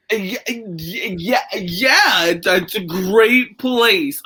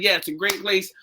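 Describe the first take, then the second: First: Slow, halting retold answer, searching for words; stalling for words. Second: Soft, unstammered "Yeah, it's a great place"; awkward small talk. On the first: Answering a stranger's pickup line, awkwardly stalling. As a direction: stammer on "Yeah, yeah, yeah", then drag "great place". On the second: Retold or imitated. Retold polite answer to an unwanted admirer, quietly awkward. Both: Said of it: "thinking of what to say".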